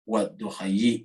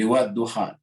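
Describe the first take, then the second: First: The word ends with an added yi sound. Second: The word ends on a plain long a. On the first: This is what grammar rules alone would expect. "secara kaidah bahasa harusnya wad-duhayi" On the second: This is how the verse is actually recited. "tidak dibaca ya-nya"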